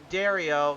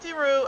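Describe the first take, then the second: First: The surname ends with an 'ee-oh' sound. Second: The surname ends with an 'oo' sound. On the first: The speaker calls it right. "reminded me that it's Dario" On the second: The speaker calls it wrong. "So not Deru"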